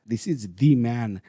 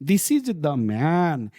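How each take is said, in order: First: 'The' is said with a long ee vowel. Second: 'The' is said with a short uh vowel. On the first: The speaker calls it right. "Pronunciation दी ही होगा" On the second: The speaker calls it wrong. "इधर द man नहीं होगा"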